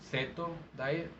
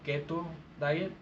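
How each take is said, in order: First: The first word begins with an S sound. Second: The first word begins with a K sound. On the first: This is the correct translation. The speaker calls it right. "It should be the keto diet" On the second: This is what people commonly call it. The speaker calls it wrong. "here in Mexico they call it the keto diet"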